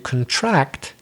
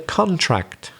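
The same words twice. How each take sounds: First: The stress is on the second syllable. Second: The stress is on the first syllable. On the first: It is a verb meaning to get smaller. "then we got to stress the second syllable" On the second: It is a noun meaning a signed agreement. "we stress the first syllable because it's a noun"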